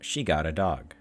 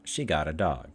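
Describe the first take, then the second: The two takes are said the same way.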